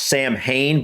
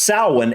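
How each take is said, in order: First: The word is read letter by letter as spelled. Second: The word is said unlike its spelling suggests. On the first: The speaker calls it wrong. "it looks like it's pronounced Samhain" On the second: The speaker calls it right. "so it's pronounced Samhain"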